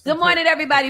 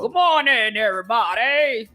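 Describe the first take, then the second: First: It is said in her ordinary natural voice. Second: It is said in a firm, strong put-on voice.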